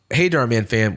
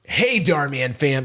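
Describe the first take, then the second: First: It is said in a normal voice. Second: It is said in a put-on voice.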